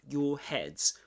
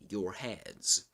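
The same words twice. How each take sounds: First: The r at the end of 'your' is silent. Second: The r at the end of 'your' is pronounced. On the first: "We don't pronounce the R in in in British English" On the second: "in American English, you'll say your your heads"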